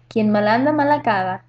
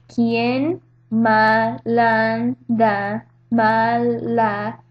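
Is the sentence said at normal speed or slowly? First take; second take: normal speed; slowly. First: It is said at normal speed. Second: It is said slowly.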